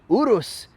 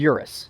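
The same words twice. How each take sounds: First: The name is said the non-American way. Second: The name is said the American way.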